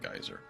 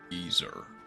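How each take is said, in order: First: It is said the non-British way. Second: It is said the British way. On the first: "instead of geyser" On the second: "they pronounce it geyser"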